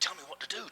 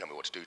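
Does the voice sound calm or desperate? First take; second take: desperate; calm. First: It is said in a pleading, desperate voice. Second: It is said in a calm, ordinary voice. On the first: A king desperate to be told what to do. "Cromwell's version is" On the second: A king simply asking for advice. "in a normal voice"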